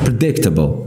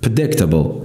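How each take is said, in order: Both takes have the same delivery.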